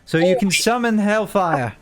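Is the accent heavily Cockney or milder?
milder. It is spoken with a milder, less Cockney accent.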